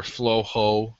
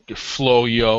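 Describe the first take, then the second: First: Flojo said slowly as FLOH-hoh; Flojo, slow, ending in "ho"; alternative pronunciation. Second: Floyo said slowly as FLOH-yoh; Floyo, slow, ending in "yo"; alternative pronunciation. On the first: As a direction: sound out Flojo with the j as an h. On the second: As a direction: sound out Floyo with a y in the middle. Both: Shown as a demonstration. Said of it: "is the proper pronunciation".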